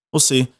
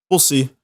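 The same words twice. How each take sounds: The two takes are said the same way.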